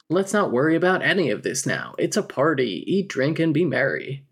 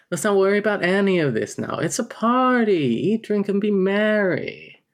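First: Said in the usual way. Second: Higher, louder, faster reread of the party line; Snake Jailbird impression. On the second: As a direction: play it like a smug cartoon con man. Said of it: "Snake Jailbird from The Simpsons now".

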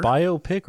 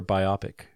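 First: Biopic said BYE-oh-pick, with a long O; BYE-oh-pick pronunciation. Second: Biopic said bye-OP-ick, rhyming with myopic; bye-OP-ick pronunciation. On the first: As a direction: say biopic as bio plus pick. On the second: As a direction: stress the short OP in biopic. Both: Shown as a demonstration. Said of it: "Is it biopic or biopic?".

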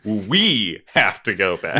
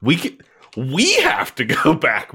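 First: Slow, weight moved off we onto the next word; second take, emphasis shifted; stress on another word. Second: WE stressed, the rest flat; plain first take with the weight on we. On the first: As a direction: say We have to go back slowly with the weight off we. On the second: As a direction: lean on the word we. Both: Shown as a demonstration. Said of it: "put the emphasis on the other word".

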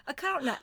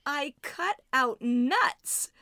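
First: A cutout nut blurred into one word; run together. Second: I cut out nuts said very slowly, each word apart; slow, spelled out. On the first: Shown as a demonstration. She mishears a cutout nut as one thing. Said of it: "running it all together". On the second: Retold or imitated. Friend slowly clarifying she cut out nuts. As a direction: drag out I cut out nuts so every word is clear.

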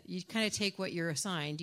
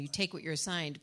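First: Said in the usual way. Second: "take" said firmly with a falling tune, no hedge; plain and definite: you "take" what you're assigned; firm correction. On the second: Shown as a demonstration. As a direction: land on "take" and let it fall, no "kinda". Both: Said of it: "You don't kind of take what you're assigned".

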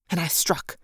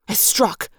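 First: "and I struck" muted, almost under the breath; quiet. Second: "I struck!" punched higher with force on "I"; "I struck!" exclaimed with a strong lift on "I"; emphatic. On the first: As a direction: say "and I struck" softly and drop away. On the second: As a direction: hit "I struck!" hard and bright. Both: A narrator's reading. Battle trance, first strike.

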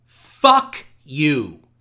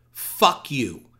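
First: Louder shouted reading of Fuck you; read as all caps. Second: Said in the usual way. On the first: Acted. Podcaster reading a hate letter aloud, loud mock shout. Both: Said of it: "And that is in caps".

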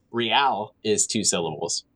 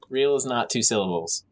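First: "Real" stretched into two beats, ree-al; real as two syllables. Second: "Real" clipped to one beat, reel; real as one syllable. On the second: Insisting to friends it's one syllable, "Real" as one beat. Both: Shown as a demonstration.

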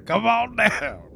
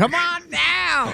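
First: Laughing, lighter copy of the pitch; laughing ad echo. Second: Loud, high, slow ad shout; furniture ad pitchman. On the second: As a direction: belt it like a TV salesman. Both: Retold or imitated. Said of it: "know Bob's Furniture".

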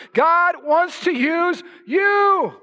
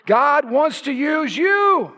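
First: Very slow and high, each word of "God wants to use you" held out; ringing, drawn-out proclamation of "use you"; strong emphasis. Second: Slow, raised pitch, drawing out "God wants to use you"; slow, weighty declaration ending on a long "you"; emphatic. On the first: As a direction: set "you" apart, long and high. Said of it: "I'm gonna say it again for emphasis". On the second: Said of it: "say it again for emphasis". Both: Real, not acted.

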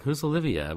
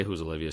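First: High-pitched acted question; mock questioning. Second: Said in the usual way. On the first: She hears Olivia is calling, mock questioning. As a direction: put on her querying voice, pitched up.

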